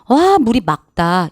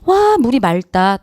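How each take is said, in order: First: The last word is said with a K sound. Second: The last word is said with an L sound. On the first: The speaker calls it right. "이러셔야 돼요" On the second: The speaker calls it wrong. "다 틀린 얘기입니다"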